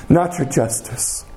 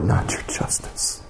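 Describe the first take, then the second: First: Said in the usual way. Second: Breathless whisper, lower and much softer; whispered prayer. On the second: Pretend. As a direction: murmur the plea under your breath. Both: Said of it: "the only thing we can say is".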